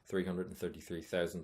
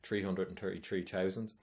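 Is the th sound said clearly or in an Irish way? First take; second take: clearly; Irish. First: The th sounds are pronounced clearly and fully. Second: The th sounds are pronounced with an Irish accent. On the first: The speaker calls it right. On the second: The speaker calls it wrong.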